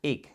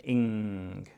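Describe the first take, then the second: First: "ig" with a hard g, no ng; wrong ending. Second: "Ing" ending on the ng sound, no hard g; correct ending. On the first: Parent modelling the child's wrong ending "ig". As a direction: say "ig" ending on a plain g sound. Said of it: "You could say ig". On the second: Parent modelling the right ending "Ing" for a child. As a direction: say "Ing" with a clear nasal ng. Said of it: "What's the last sound?". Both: Shown as a demonstration.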